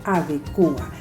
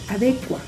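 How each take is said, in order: First: The stress falls on the syllable 'cu'. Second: The stress falls on the syllable 'de'.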